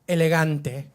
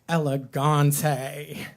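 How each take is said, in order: First: It is said with a Spanish accent. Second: It is said with an American accent.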